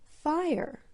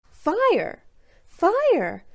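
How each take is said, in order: First: Said in the usual way. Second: Excited shout. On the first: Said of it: "It was the word". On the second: A narrator's reading. Cub finds his new name.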